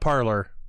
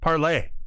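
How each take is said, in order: First: The word ends with an 'or' sound. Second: The word ends with an 'ay' vowel sound. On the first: The speaker calls it wrong. "Not parlor" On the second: The speaker calls it right. "There you go"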